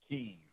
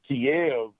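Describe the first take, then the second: First: It is said the Ukrainian way, as Kyiv. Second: It is said the Russian way, as Kiev. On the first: The speaker calls it right. "the city is pronounced" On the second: The speaker calls it wrong. "a Russian pronunciation that the Ukrainians do not appreciate"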